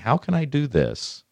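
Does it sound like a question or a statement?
question. It sounds like a real, open question.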